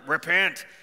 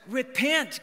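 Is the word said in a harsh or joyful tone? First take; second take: harsh; joyful. First: It is said in a harsh, condemning tone. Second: It is said in a warm, joyful tone. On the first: It is a threat of judgment. The speaker calls it wrong. "sometimes we hear that kind of street preaching like" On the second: It is an offer of good news. The speaker calls it right. "Like, I got good news"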